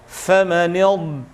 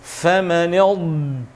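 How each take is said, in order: Both takes have the same delivery.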